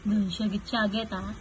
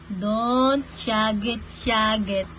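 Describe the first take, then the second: First: Low, soft hushing; quiet hush. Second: Low and slow, words stretched out; slow hushing. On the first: Parent telling baby not to shout, low quiet hush. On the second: Parent telling baby not to shout, slow drawn-out hush. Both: Real, not acted.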